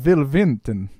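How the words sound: Will begins with a V sound, Dracula-style.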